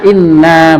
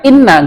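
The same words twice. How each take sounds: First: The final vowel is held long. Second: The final vowel is cut short. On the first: The speaker calls it right. "nggak pendek" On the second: The speaker calls it wrong.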